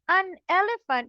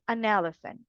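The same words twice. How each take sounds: First: The two words are said separately, not joined. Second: The two words are joined into one flow. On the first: The speaker calls it wrong. "you're not gonna say an elephant" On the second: The speaker calls it right. "you're going to link it"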